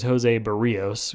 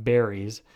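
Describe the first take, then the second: First: Berrios said as the Spanish surname, be-REE-os; correct name pronunciation. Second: Berries said like the fruit, BERR-eez; mistaken name pronunciation. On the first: Podcaster correcting his brother's name slip, Berrios said be-REE-os. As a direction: say Berrios in three syllables, stressing the middle. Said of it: "his name is Jose Berrios, okay, not Berries". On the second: Podcaster quoting his brother's name slip, Berries said like the fruit. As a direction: say Berries in two syllables, stressing the first. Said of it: "okay, not Berries". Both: Shown as a demonstration.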